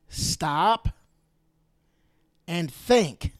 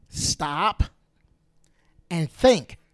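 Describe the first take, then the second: First: "Stop" rising, then a pause, then "and think" louder and falling; spaced out, each word hit hard; slow emphatic command. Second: "Stop" rising, a pause, then "and think" much louder; loud emphatic command. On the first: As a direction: urge them, word by word, to pause and reflect. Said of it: "repeats the command with pauses". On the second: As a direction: build to a loud punch on "think". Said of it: "repeats the command, even louder". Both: Shown as a demonstration.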